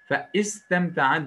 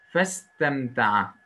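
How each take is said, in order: First: The initial i vowel is pronounced separately after fe. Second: The initial vowel is dropped, linking fe to the word. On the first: The speaker calls it wrong. "Fe istemta'a diyemeyiz burada" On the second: The speaker calls it right. "Elif düşecek okunuşta"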